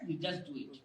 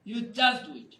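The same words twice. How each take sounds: First: Low, soft aside; soft instruction. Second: Said in the usual way. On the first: Real, not acted. Coach urging the class to practise, low and soft. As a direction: say it lower and softer, almost to yourself.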